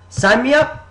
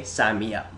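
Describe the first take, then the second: First: High, loud eager shout; hyped-up recruit signing on the spot; emphatic. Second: Said in the usual way. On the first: Retold or imitated. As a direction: blurt it out in a burst of hype. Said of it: "you say emphatically". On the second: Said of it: "so you say".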